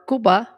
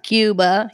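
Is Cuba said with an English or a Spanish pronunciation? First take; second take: Spanish; English. First: It is said with a Spanish pronunciation. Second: It is said with an English pronunciation. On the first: The speaker calls it right. "which is the right way to say it" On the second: The speaker calls it wrong. "not Cuba"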